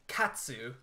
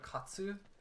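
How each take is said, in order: First: The first vowel is an English-style a. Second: The first vowel is an open Japanese-style ah. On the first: "they'll be like katsu. Like they always pronounce it in the most English way possible" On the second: "instead of"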